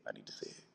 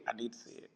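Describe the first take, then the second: First: I need to see it, whispered with no voice. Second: I need to see it, dropped much softer. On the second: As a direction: say I need to see it again, almost under the breath. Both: Real, not acted. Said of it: "repeating with fading voice".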